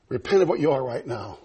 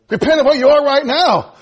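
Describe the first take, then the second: First: Low, soft voice of the Lord; quiet voice of God. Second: Higher, louder preached repeat; preached aloud. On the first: Acted. Preacher quoting the Lord's command, low and soft. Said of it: "He said". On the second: Real, not acted. Preacher urging the church to repent, higher and louder. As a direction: hit it as a plea to the church.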